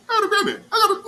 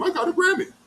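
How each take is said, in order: First: High, loud mock boast through laughter; laughing mock brag. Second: High mocking brag, imitating a show-off; mocking boast. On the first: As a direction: crack up while mocking the bragger. Mocking Patrick's bragging, laughing. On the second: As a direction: hold the boast up high to mock it. Mocking Patrick's bragging.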